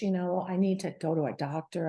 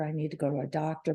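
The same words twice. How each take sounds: First: Said in the usual way. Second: "I need to go to a doctor" rushed out fast and low, like a nagging thought; fast repeat to herself. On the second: Retold or imitated. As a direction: hurry the line under your breath as you tell yourself again.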